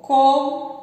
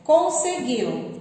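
First: "conseguiu" said syllable by syllable, con-se-guiu; split into syllables. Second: Said in the usual way. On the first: Shown as a demonstration. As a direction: break "conseguiu" into its syllables for the class. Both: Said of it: "Eu só separei as sílabas".

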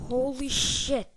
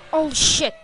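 First: Said in the usual way. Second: Loud, shocked outburst; startled curse. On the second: Real, not acted. Gamer blurts a loud shocked curse at a scare.

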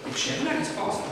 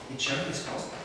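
First: "E c'è una risposta" pitched high, falling on "una"; a bright, raised "E c'è una risposta"; high announcement. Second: A soft echo of "e c'è una risposta"; quiet echo. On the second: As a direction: murmur "e c'è una risposta" back to yourself. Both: Shown as a demonstration.

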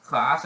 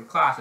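First: Class with a short front A as in cat; American pronunciation. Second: Class with a long broad ah, drawn out; British pronunciation. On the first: Showing viewers American English class, short front A. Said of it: "that's American English". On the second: Showing viewers British English class, long broad ah. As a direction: say CLASS the British way, slow open ah. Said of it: "also for British English". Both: Shown as a demonstration.

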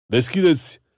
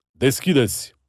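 First: "Deschideți!" barked high and loud, rising at the end; gendarme shouting. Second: "Deschideți!" shouted loud, falling hard at the end; gendarme shouting. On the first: Gendarme at the gate ordering them open, "Deschideți!" shouted rising. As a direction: pound out "Deschideți!" as a rising command. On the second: Gendarme at the gate repeating the order, "Deschideți!" shouted falling. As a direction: slam down "Deschideți!" as a final order. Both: Acted.

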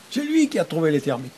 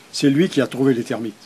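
First: Higher, put-on voice of a thrilled learner; delighted exclamation. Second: Said in the usual way. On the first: Teacher imitating learners very happy to understand a sentence, delighted exclamation. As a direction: exclaim it on a high held pitch, then drop.

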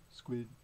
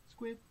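First: SQUID on a short low note. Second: SQUID on a short high note. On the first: Reader prompts children to say squid, low note. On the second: Reader prompts children to say squid, high note. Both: Pretend.

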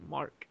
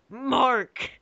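First: Softly spoken name, pitched down; understated, almost under the breath; quiet reading. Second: High, drawn-out call of the name; hammed-up wail of a name; mock cry. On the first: Acted. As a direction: say the name low and soft. Name read, then cried out. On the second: Name cried out after quiet take.

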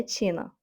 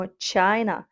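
First: Чіна with an ee vowel, CHEE-na; the mistaken reading of China, Чіна as chee-na; mispronounced as Чіна. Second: China as CHY-na, with an eye vowel; China rhyming with minor; correct English China. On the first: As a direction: say Чіна with a long i as in cheese. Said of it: "Не Чіна". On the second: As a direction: model China carefully as CHY-nuh. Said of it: "Уважно запам'ятовуємо". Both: Shown as a demonstration.

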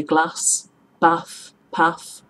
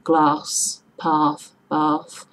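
First: "glass", "bath", "path" with short A as in cat; northern short A. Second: "glass", "path", "bath" with long back "ah". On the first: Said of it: "we say". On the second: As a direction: stretch the A as if "glarss", "parth", "barth". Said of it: "That we pronounce an R in there". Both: Shown as a demonstration.

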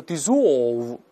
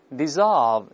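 First: British dissolve with a rounded o; British pronunciation. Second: American dissolve, slow, the o opened like a sigh; American pronunciation. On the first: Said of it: "口型非常圆". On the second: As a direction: let the o of dissolve relax into a sigh, American style. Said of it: "这个哦变成叹气啊". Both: Shown as a demonstration.

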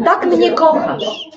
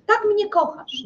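First: Wolno, z wyższym śmiechem i przekąsem; przeciągnij to kpiąco, śmiejąc się; ironiczny wyrzut. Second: Wyżej, ciszej, z udawanym żalem; rzuć to z gorzkim przekąsem; ironiczny wyrzut. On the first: (żona kpi z miłości męża, wolno i ze śmiechem) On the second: (żona powtarza wyrzut mężowi, wyżej i ciszej) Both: Acted. Żona z ironią do męża.

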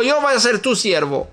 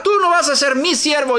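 First: "yo" hit with a falling accent; stress on yo. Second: "tú" pushed high and falling; stress on tú. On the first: Praying to God, contrasting yo, stress on "yo". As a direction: lean on "yo" to set it against "tú". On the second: Praying to God, contrasting tú, stress on "tú". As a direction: lean on "tú" to set it against "yo". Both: Shown as a demonstration.

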